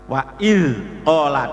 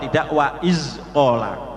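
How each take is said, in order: First: The z sound is smooth, without hissing. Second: The z sound is hissed like an s. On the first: The speaker calls it right. "Kalau nempel mestinya tidak ada suara desis" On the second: The speaker calls it wrong. "itu salah ya"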